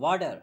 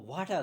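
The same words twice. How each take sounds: First: It is said in a Canadian English accent. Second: It is said in a British accent, r nearly silent. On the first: "जो Canadian है वो वाटर नहीं कहते, वो कहते हैं वाटर" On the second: "British में इसको वाटर कहा जाता है। वाटर यानी कि आर को ना होने के बराबर बोलते हैं।"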